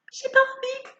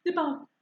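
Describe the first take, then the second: First: High, whining reluctant voice; whiny. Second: Said in the usual way. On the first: Retold or imitated. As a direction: whine it like a sulky child.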